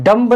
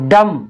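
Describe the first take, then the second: First: A b sound is heard at the end. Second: The word ends on the m sound. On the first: The speaker calls it wrong. "तो इसको हम डम्ब नहीं पढ़ेंगे" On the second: The speaker calls it right. "इसको हम क्या पढ़ेंगे"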